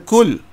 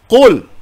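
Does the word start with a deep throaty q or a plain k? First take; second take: plain k; deep q. First: It begins with a plain front k sound. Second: It begins with a deep throaty q sound. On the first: The speaker calls it wrong. "bukan kul" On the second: The speaker calls it right. "Qul menggunakan huruf qaf"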